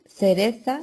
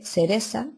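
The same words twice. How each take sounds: First: The first consonant is a th sound. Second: The first consonant is an s sound. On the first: "en vez de decir la Z o la C" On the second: "se dice la S"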